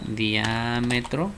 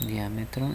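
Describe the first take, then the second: First: Diámetro said very slowly, weight on the first syllable DIÁ; stress on DIÁ. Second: Said in the usual way. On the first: Shown as a demonstration. Teacher showing the class where the accent goes, slow and stressed. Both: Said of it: "con acento en la".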